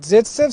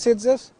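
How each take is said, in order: First: The name is said with a Russian pronunciation. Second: The name is said with an Indian pronunciation.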